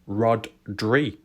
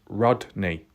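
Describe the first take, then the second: First: The name ends with a 'dree' sound. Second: The name ends with a 'nee' sound. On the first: The speaker calls it wrong. "I was calling it Kylie Rodri" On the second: The speaker calls it right. "But it was pronounced Rodney"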